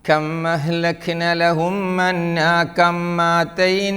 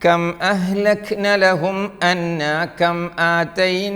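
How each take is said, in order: First: The m is doubled and runs into the vowel. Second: The m ends, then a glottal stop begins the vowel. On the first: The speaker calls it wrong. "മീം സുക്കൂനായി വന്നാൽ പിന്നിലെ ഹംസൊഴിവാക്കി പറയല്ലേ. മീമിന് ശദ്ദും നൽകല്ലേ" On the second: The speaker calls it right. "എന്നാണല്ലേ"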